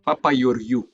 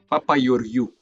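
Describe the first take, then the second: First: The surname has a Greek pronunciation. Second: The same.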